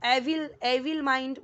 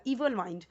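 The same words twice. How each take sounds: First: एविल said with an open e, like ay-vil; teacher showing the mistaken एविल; wrong pronunciation. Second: इविल said with a long ee, like ee-vil; teacher giving the right इविल; correct pronunciation. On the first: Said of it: "तो वो भी wrong हो जाएगा". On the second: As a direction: start इविल on a long ee sound. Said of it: "वो भी wrong हो जाएगा". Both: Shown as a demonstration.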